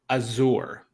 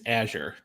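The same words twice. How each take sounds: First: It is said with a British pronunciation. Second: It is said with an American pronunciation. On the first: "the British pronunciation pronunciation is Azure" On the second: "the American English pronunciation of this is Azure"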